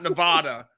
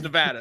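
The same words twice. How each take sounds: First: The middle vowel is a broad ah sound. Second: The middle vowel sounds like the vowel in cat. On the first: The speaker calls it wrong. "It's not Nevada. ... There's no H in there. ... It's not N E V A H D A" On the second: The speaker calls it right. "it's Nevada"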